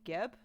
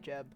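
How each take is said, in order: First: The name starts with a hard G sound. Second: The name starts with a soft J sound.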